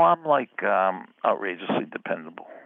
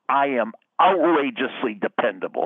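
First: It is said hesitantly, with fillers. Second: It is said with certainty.

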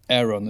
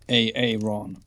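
First: The name is pronounced in the ordinary way. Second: The name is pronounced in an odd, distorted way. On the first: This is how the name is normally said. "inte Aaron" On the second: This imitates someone mispronouncing the name. "när han uttalar det, inte Aaron utan Aaron"

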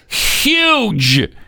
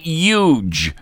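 First: The word begins with a clear H sound. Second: The word begins without an H sound. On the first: The speaker calls it right. "Why can't you say the H in the word? It's huge" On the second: The speaker calls it wrong. "it's not huge"

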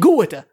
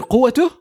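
First: The first consonant is a hard g sound. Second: The first consonant is a q sound. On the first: The speaker calls it wrong. "we don't say قوته" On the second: The speaker calls it right. "we say either قوته"

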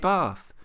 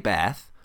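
First: It is said with a non-American pronunciation. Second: It is said with an American pronunciation. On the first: "I say Bath" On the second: "Americans say Bath"

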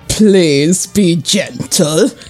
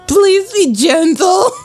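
First: It is said in a plain, firm voice. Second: It is said in a soft, trembling voice.

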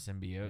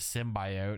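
First: The word is said the usual, familiar way. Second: The word is said the film's odd way. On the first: The speaker calls it right. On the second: The speaker calls it wrong.

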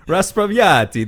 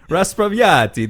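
First: The word is said with an Italian-like flair. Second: The word is said with an Italian-like flair.

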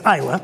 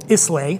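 First: The word ends with an 'ah' sound. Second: The word ends with an 'ay' sound. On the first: The speaker calls it right. "But it's Isla" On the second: The speaker calls it wrong. "you'll hear it mispronounced"

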